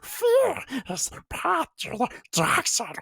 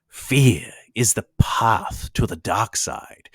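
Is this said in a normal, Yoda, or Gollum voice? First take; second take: Gollum; normal. First: It is said in a Gollum voice. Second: It is said in his normal voice.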